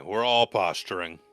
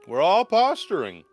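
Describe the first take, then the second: First: Said in the usual way. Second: High, loud repeat; loud emphatic. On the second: Shown as a demonstration. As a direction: shout it the second time.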